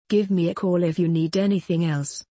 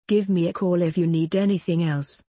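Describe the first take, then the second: No difference in how they are said.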